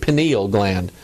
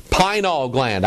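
First: "pineal" said with a short i, ending ee-ul; alternative pronunciation. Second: "Pineal" said as PIE-nawl; long i in "Pineal", ending in -nawl; alternative pronunciation. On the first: Speaker showing listeners how some people pronounce it, "pineal" as PIN-ee-ul. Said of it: "some people s-, pronounce it pineal gland". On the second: Speaker offering listeners another pronunciation, "Pineal" as PIE-nawl. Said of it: "I don't care how you pronounce it". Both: Shown as a demonstration.

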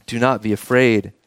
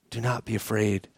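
First: Lower, soft reassuring voice; gentle comfort. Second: Much softer, lower, near whisper; hushed comfort. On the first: Jesus to the scared disciples, gentle and reassuring. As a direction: say it like calming frightened men. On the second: Jesus to the disciples in the storm, hushed and tender. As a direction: let it fall to a tender hush. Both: Acted.

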